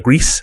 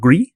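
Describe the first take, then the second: First: It is said like the English word 'grease'. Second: It is not said like the English 'grease'. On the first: "like grease, like yeah. a, like oil" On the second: "which can be pronounced gris"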